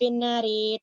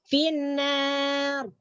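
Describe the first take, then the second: First: The r is thin, with a final i vowel. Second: The r is thick, stopping on it. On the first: "Ro di kasrah" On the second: "Wakaf tebal"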